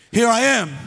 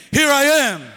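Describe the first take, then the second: First: Said in the usual way. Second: Declared with conviction, a bit louder; like you mean it. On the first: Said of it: "can you say it with me?". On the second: Shown as a demonstration. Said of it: "Say it like you mean it".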